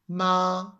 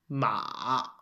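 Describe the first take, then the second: First: The pitch stays high and level. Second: The pitch dips low and then rises. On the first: It means mum. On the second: It means horse.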